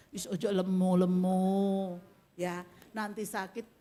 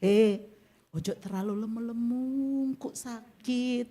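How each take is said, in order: First: Lower, slower, kind "Wis ojo lemu-lemu"; gentle caring warning. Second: Harsh blunt warning. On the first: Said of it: "Tapi cara penyampaiannya". (teguran lembut penuh kasih) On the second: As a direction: snap "ojo terlalu lemu-lemu" like a careless nag. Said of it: "Loh, beda". (teguran ketus dan kasar) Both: Shown as a demonstration.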